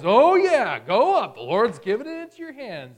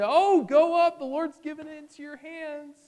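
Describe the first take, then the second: First: Loud, high mock enthusiasm; heavy sarcasm. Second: Very high singsong encouragement, loud start then easing off; sycophantic cheering. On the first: Prophet mockingly answering the king, heavily sarcastic. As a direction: overblown cheering that clearly means the opposite. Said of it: "there's heavy sarcasm there". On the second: Acted. False prophets egging on their king, fawning. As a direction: cheer him on like fawning yes-men. King's yes-men all cheer him on.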